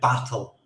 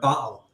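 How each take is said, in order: First: The t is pronounced as a clear t. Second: The t is replaced by a glottal stop. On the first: This is the more common pronunciation. "instead of battle" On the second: This is a regional pronunciation. "the way I pronounce the word battle ... a term called T T glottling"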